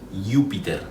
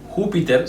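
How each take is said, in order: First: It begins with a soft y-like sound. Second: It begins with a harsh throaty sound.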